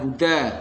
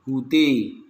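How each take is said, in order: First: The final vowel is an open 'a'. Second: The final vowel is tilted toward 'e'. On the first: "bacaan imam kita" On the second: "dibaca imalah menjadi hude"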